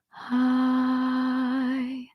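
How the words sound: The vowel starts with a soft puff of air. "a breathy onset, meaning I start with air"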